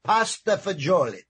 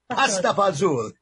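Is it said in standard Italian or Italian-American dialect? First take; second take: standard Italian; Italian-American. First: It is said in standard Italian pronunciation. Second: It is said in Neapolitan-American dialect pronunciation.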